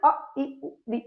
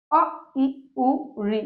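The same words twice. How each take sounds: First: अ, इ, उ, ऋ एकदम छोटे और फुर्ती से; हर स्वर को झट से बोलकर छोड़ दो; झटपट ह्रस्व स्वर. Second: Said in the usual way. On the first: Shown as a demonstration. (ह्रस्व स्वर जल्दी-जल्दी बोलना) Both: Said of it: "एकदम से बोल गए ना".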